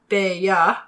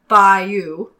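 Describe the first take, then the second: First: It is said with a British pronunciation. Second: It is said with an American pronunciation. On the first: "British say Bayeux" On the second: "Americans say Bayeux"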